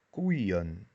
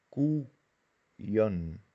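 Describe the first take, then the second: First: Said in the usual way. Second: Koeien drawn out as koei, en; syllable by syllable; split into syllables. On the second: Shown as a demonstration. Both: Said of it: "los diptongos permanecen juntos".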